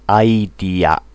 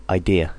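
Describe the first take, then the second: First: "Idea" with a flat, full final a; "Idea" said the Japanese way, each vowel pure; "Idea" as aidia; Japanese loanword style. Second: Said in the usual way. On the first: Shown as a demonstration. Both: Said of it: "Japanese English".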